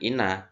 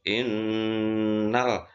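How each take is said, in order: First: The n sound is short and single. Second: The n sound is held long and doubled. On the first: The speaker calls it wrong. "bukan ina" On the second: The speaker calls it right. "karena ada tasdid"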